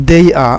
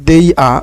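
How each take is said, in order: No difference in how they are said.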